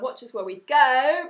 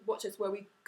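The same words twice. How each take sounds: First: The vowels are wide. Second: The vowels are narrow. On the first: The speaker calls it wrong. "nasty wide red letters" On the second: The speaker calls it right. "narrow green letters"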